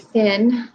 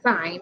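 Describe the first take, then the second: First: The vowel is short, rhyming with pin. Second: The vowel is long, rhyming with line. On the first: The speaker calls it wrong. "We don't say sin" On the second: The speaker calls it right. "So it is still sine, even though it says sin"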